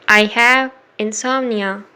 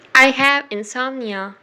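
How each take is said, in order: Both takes have the same delivery.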